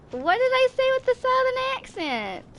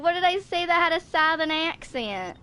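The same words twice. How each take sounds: First: Much higher, squeaky incredulous repeat; squeaky playful protest at the chat; mock disbelief. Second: Said in the usual way. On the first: Shown as a demonstration. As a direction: throw the question up high in fake outrage. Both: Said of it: "that was a lot of southern accent in there".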